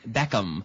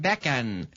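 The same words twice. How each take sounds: First: The lips close fully for the M sound. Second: The lips stay open for the M sound. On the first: The speaker calls it right. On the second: The speaker calls it wrong.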